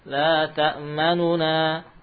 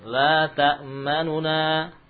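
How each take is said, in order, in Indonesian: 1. Bunyi u pendek yang dipersingkat memisahkan kedua bunyi n. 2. Bunyi u pendek yang dipersingkat memisahkan kedua bunyi n.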